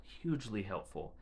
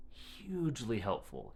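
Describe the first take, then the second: First: Said in the usual way. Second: Hugely stretched and slowed for emphasis; emphatic. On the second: Real, not acted. Mother stressing how helpful the board was, slow emphasis. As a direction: lean on hugely helpful slowly.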